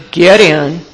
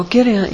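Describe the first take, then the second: First: Exaggerated gruff "get in"; curt order. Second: Said in the usual way. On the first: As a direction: order them into the car grudgingly. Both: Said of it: "I didn't say it like that".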